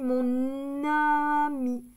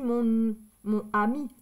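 First: The n sound links into the next word. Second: The two words are said without linking. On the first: The speaker calls it right. "j'ai dit mon ami ... c'est plus joli quand on fait la liaison" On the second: The speaker calls it wrong. "J'ai pas dit mon ami"

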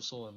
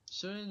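First: The first vowel sounds like 'so'. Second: The first vowel sounds like 'sue'. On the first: It means stitching with needle and thread. The speaker calls it right. "Sewing is actual sewing" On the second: It means taking someone to court. The speaker calls it wrong. "Sewing is when you sew people from your job or whatever"

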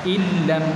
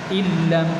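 Both takes have the same delivery.

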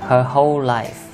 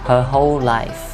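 The two takes are said the same way.

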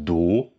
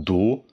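Both takes have the same delivery.

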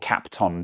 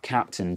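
First: The second syllable sounds like 'ton'. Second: The second syllable sounds like 'tin'. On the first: The speaker calls it right. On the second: The speaker calls it wrong.

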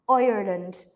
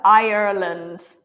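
First: It is said in an Irish accent. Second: It is said in an American accent.

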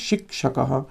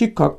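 First: It is said in the Sanskrit way, both letters sounded. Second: It is said in the Bengali way. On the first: "কিন্তু সংস্কৃত উচ্চারণে শিক্ষকঃ" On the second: "আমরা বাংলায় তো বলছি শিক্ষক"

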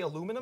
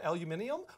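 First: The word is said the American way. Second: The word is said the British way. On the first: "we say aluminum" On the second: "instead of aluminium"

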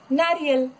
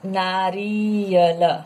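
First: The i vowel is kept short. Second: The i vowel is drawn out long. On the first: The speaker calls it right. "फिर से यहाँ कम time लो और pronounce करो" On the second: The speaker calls it wrong. "Not नारियल"

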